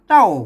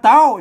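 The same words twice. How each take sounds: First: It is said with the saman (level) tone. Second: It is said with the tri tone. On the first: "เต้าสามัญ" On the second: "เต้าเสียงตี"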